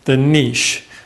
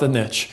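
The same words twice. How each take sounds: First: It is said the British way. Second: It is said the American way.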